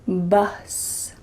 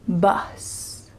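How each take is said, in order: First: The vowel is a short U sound. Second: The vowel is a short U sound.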